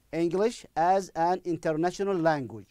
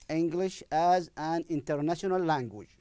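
No difference in how they are said.

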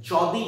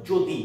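First: যদি said with an open অ, jaw-di; wrong pronunciation demo. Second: যদি said with an o sound, jo-di; correct pronunciation demo. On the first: Teacher shows the spelling-based sound of যদি to avoid. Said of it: "যদি নয়". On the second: Teacher gives the real sound of যদি. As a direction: model যদি with a rounded o. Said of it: "উচ্চারণটা হলো যদি". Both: Shown as a demonstration.

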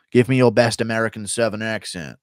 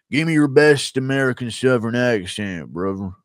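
First: Said in the usual way. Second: Put-on American Southern twang; imitation American Southern accent.

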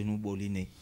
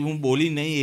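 First: Said in the usual way. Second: "હું બોલી નહીં" said louder, with stress; pointed stress. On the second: Acted. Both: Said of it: "એ બી તમે stress કરો છો".

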